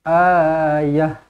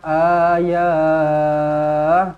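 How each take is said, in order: First: The final vowel is kept short. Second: The final vowel is drawn out long. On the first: The speaker calls it right. "Pendek sahaja" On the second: The speaker calls it wrong. "Tak perlu tiba-tiba baca panjang ayah, tak ada, salah"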